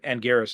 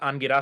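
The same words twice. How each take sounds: First: The name is said with American pronunciation. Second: The name is said with Japanese pronunciation. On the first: "is a pretty good Americanization of it" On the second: "The the Japanese is"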